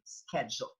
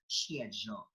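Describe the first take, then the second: First: It is said with an American accent. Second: It is said with a British accent. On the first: "we, like the Americans, say schedule" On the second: "in Britain, that is schedule"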